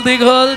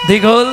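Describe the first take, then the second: The two takes are said the same way.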